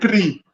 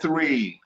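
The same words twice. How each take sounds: First: The word begins with a plain t sound. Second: The word begins with a soft th sound. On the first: This is the form the speaker's community uses. "We say" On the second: This is the form the speaker's community avoids. "We don't say"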